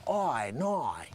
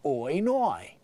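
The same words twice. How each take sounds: First: Soft, drawn-out mock Australian "Oi, noi"; overdone Australian accent. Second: Simple mock Australian "Oi, noi"; easy Australian accent. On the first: Comedian shows listeners what not to do, laboured Australian accent. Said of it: "it's not like you have to say". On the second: Comedian shows listeners the easy way, simple Australian accent. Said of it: "Just say". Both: Shown as a demonstration.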